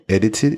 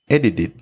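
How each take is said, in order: First: The middle T is pronounced as a clear T. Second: The middle T sounds like a soft D. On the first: "You can say edited, it's okay" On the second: "we turn the T into like a D, soft D"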